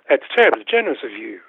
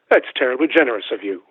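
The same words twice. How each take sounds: First: It is said with a Southern lilt. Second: It is said without a regional accent.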